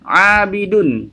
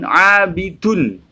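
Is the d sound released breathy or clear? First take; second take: clear; breathy. First: The d is said clearly, without a breath. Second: The d is said with a puff of breath. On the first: The speaker calls it right. "Jadi yang benar abidun" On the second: The speaker calls it wrong. "bukan abidun"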